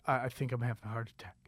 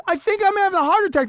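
First: Much softer and lower, fast and faint; a small frightened murmur to the crowd; scared near-whisper. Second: Higher, louder and fast; a frantic protest at someone filming him; exasperated outburst. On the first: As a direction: barely get the words out, frightened. Panicking quietly on stage. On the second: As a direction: fire it back in disbelief. Telling people filming him. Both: Retold or imitated.

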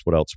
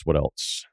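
First: Said in the usual way. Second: Softer, as if far from the mic; quiet, drifting repeat of the question; trailing off. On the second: Real, not acted. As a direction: mutter it away to yourself. Trailing off musing.

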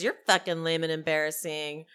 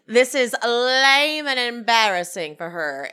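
First: Lightly acted retort, pitched lower; Angie. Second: Loud, drawn-out haughty scolding; Meredith. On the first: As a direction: toss the insult back in a lower voice. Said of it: "Angie says". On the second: Retold or imitated. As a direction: stretch LAME with theatrical disdain. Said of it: "Meredith says".

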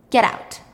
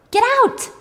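First: Said in the usual way. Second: High, loud yell; acted scream. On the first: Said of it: "Ellen crumbles it up and trashes it". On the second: Ellen throws Hannah's purse out, high acted scream. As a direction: yell it with the pitch jumping up. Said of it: "And Ellen screams".

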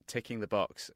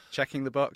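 First: Said in the usual way. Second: "Checking the box" a bit louder and higher, leaning on Checking; American phrasing. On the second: Shown as a demonstration. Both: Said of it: "that seems to confuse Americans".

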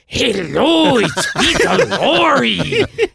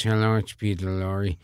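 First: High, loud, long-drawn caricature voice; Peter Lorre imitation. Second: Said in the usual way. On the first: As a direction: correct him with a hammed-up, stretched-out impersonation. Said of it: "do a good Peter Lorre imitation". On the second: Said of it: "couldn't do a good Peter Lorre imitation".

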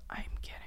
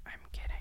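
The two takes are said the same way.

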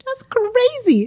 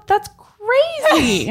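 First: High slow "That's crazy."; drawn-out, high-pitched disbelief; mock outrage. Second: Mock outrage. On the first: Echoing the outrage. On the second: Exaggerated disbelief.

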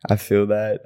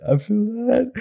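First: Said in the usual way. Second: "that" sung out much higher; high-pitched repeat. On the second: Shown as a demonstration. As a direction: say "I feel that" again, way up high.

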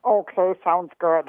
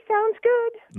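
First: Slow, put-on low voice. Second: Slow, put-on high voice. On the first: Contestant showing the host her game voice, low voice. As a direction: drop it way down and draw it out. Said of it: "low voice". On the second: Contestant showing the host her game voice, high voice. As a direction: pitch it right up and draw it out. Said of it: "give us your high voice". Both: Shown as a demonstration.

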